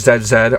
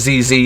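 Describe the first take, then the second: First: The letter Z is said the non-American way. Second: The letter Z is said the American way.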